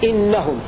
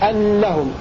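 First: The first vowel is i. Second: The first vowel is a. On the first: "بكسر الهمزة" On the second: "بفتح الهمزة"

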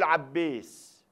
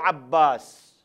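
First: The long vowel is raised toward an e sound. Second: The long vowel is an open a sound. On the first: The speaker calls it wrong. "يقول عبيس" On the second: The speaker calls it right. "ما يقول عباس"

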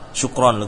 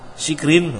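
First: The first vowel is u. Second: The first vowel is i. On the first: The speaker calls it right. "bukan syikrin tapi apa? Syukron" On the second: The speaker calls it wrong. "oh salah kamu"

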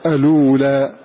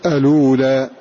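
The two takes are said the same way.

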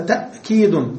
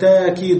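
First: A glottal stop closes the first syllable. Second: A long a vowel replaces the glottal stop.

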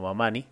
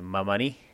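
First: The stress is on the middle syllable. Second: The stress is on the last syllable. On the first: This follows the original Quechua word. The speaker calls it right. "y no Mamani" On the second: This is how it is usually said locally. The speaker calls it wrong. "estamos acostumbrados a pronunciar el apellido Mamani"

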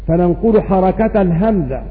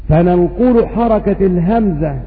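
Both takes have the same delivery.

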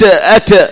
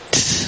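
First: The final t ends with a short echoing bounce. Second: The final t ends with a soft breathy release. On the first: The speaker calls it wrong. "ما نقول أت أت" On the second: The speaker calls it right. "الهمس في التاء، نقول ت ت، نأتي بالهمس"

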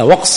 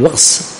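First: The final s sound is plain. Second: The final s sound is emphatic. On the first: The speaker calls it wrong. "لا وقص" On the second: The speaker calls it right. "نقول بالصاد"

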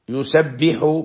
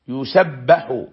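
First: The b sound carries the vowel i. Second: The b sound carries the vowel a. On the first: The men are the ones glorifying Him. "بكسر الباء" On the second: He is glorified, with the doer left unnamed. "بفتح الباء على ما لم يسمى فاعله"

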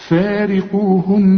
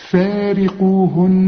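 No difference in how they are said.

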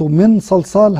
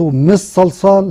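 First: The n is pronounced fully and clearly. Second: The n merges completely into the following s. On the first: "هذا إظهار" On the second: "هذا إدغام"

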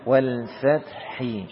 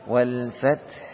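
First: The last word ends with an added vowel. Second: The last word ends on a bare consonant. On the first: The reading continues on without stopping. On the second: The reading stops at this word.

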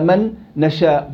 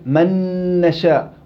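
First: There is a break between the two n sounds. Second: The two n sounds merge into one doubled n. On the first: It is the harder way to say it. "وقطعت بعد النون الساكنة" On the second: It is the easier, lighter way to say it. "بالإضغام"

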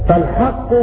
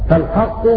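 No difference in how they are said.

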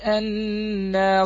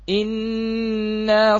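First: The word begins with an 'a' vowel. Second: The word begins with an 'i' vowel. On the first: It is read joined to the words before it. "عندما يقرأ في حال الوصل" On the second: Reading starts afresh from this word. "يبدأ كيف؟"

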